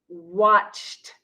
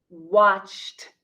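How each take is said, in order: No difference in how they are said.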